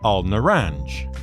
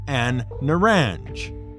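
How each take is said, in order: First: The article is said with a clear L sound. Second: The article is said with an N sound. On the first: "effectively al-naranj" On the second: "it can be pronounced as A N"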